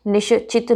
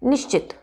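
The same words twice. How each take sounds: First: निश्चित split as "ni-sha-chit"; wrong निश्चित. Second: निश्चित as "nish-chit", श्च joined; correct निश्चित. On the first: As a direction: put a vowel after श in निश्चित. (निश्चित, श और च अलग) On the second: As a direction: join श and च in निश्चित, quick. (निश्चित, श्च संयुक्त) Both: Shown as a demonstration. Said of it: "निश्चित नहीं".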